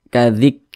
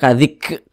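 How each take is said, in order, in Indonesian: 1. Huruf k dilepaskan dengan hembusan napas kecil. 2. Huruf k dilepaskan dengan hembusan napas besar. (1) "Seperti memercik begitu, tapi kecil saja percikannya" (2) "Jangan kadzik, kadzik, ah, jangan seperti itu. Kecil saja"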